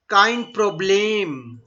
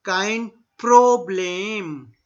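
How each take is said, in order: First: Slow Kein Problem, each sound clear; drawn out for learners; deliberate demo; slow model phrase. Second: Very slow kein Problem; drawn-out teacher demo; very slow model. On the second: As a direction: stretch it out for the class. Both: Shown as a demonstration.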